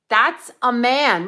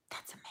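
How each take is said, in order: First: Slow, loud insistence on man; slow emphatic declaration. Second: Breathy secret whisper; whispered aside. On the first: Talking to viewers about a celebrity, slow loud insistence. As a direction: lean hard on every word, slowly. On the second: A conspiratorial whisper to viewers about a celebrity. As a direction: whisper it like a naughty confession. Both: Pretend.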